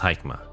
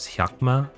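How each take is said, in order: First: The name is said with an English pronunciation. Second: The name is said with a Japanese pronunciation. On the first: "I just pronounced it as Haikma, as English" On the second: "the proper one is Hyakma, since it's Japanese"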